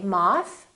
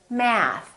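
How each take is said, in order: First: It is said with a British vowel. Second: It is said with an American vowel. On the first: "British speakers say" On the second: "Americans say"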